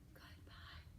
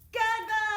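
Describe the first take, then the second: First: It is said quietly. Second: It is said loudly.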